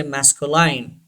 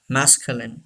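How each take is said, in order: First: Masculine ending as line, mas-ko-line; wrong pronunciation. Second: Masculine ending as short in, mas-kyu-lin; correct pronunciation. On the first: Teacher showing the wrong way to say masculine. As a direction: say masculine rhyming its end with line. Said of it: "don't say masculine". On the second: Teacher modelling the right masculine for students. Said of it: "Say this word". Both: Shown as a demonstration.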